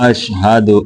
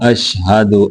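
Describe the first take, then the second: Both takes have the same delivery.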